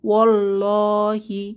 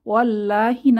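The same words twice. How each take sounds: First: The L sound is thick and heavy. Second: The L sound is thin and light. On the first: The speaker calls it right. "আমরা পড়ব" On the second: The speaker calls it wrong. "না পড়ে"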